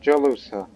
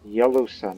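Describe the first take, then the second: First: The name begins with a J sound. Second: The name begins with a Y sound. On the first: The speaker calls it wrong. "not Jalusa" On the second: The speaker calls it right. "It's Yalusa"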